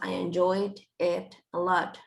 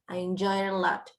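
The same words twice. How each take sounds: First: Each word is said apart, with small breaks. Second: The words run together as one linked phrase. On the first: The speaker calls it wrong. "No decimos I enjoyed it a lot. We don't separate them" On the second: The speaker calls it right. "Este tipo de frases que se leen como si fueran una sola"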